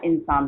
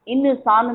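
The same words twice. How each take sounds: First: The n is said as a half sound. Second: The n is said as a full syllable. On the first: The speaker calls it right. "इंसान होता है। तो आधा न ही होगा" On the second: The speaker calls it wrong. "इंसान नहीं होता"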